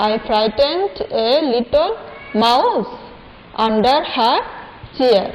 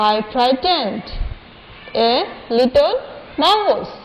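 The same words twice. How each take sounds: First: "I frightened a little" stretched out very slowly; very slow recitation. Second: "I frightened" read slowly and evenly; slow recitation. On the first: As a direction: drag "I frightened a little" syllable by syllable. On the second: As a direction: say "I frightened" word by word. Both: Shown as a demonstration. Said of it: "আমি আবার পড়িয়ে দিচ্ছি তোমাদেরকে".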